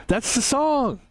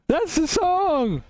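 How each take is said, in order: First: Said in the usual way. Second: Much higher and slow, stretching every word; sing-song the line way up high; a hammed-up high announcement; high drawn-out repeat.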